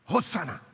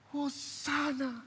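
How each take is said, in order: First: It is said in a firm, emphatic tone. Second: It is said in a complaining, lamenting tone. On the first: It is an expression of affirmation. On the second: It is an expression of complaint.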